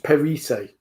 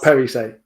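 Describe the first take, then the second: First: The stress is on the second syllable. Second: The stress is on the first syllable. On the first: The speaker calls it right. "emphasis is on the second syllable" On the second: The speaker calls it wrong. "not not"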